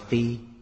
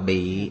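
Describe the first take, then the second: First: It begins with f and has a level tone. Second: It begins with b and has a low tone. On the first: The speaker calls it right. "mà đọc là phi" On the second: The speaker calls it wrong. "Chữ này không đọc là bị"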